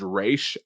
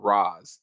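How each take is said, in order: First: The name is said with an 'aysh' sound. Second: The name is said with an 'ahz' sound. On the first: This is the established pronunciation. "the pronunciation is Raish Al Ghul" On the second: This is how most characters in the show say it. "they call him Roz"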